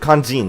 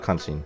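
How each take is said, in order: First: The middle consonant is a voiced 'j' sound. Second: The middle consonant is a voiceless 'sh' sound. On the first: The speaker calls it right. "kanjin, not kanshin" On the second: The speaker calls it wrong. "not kanshin"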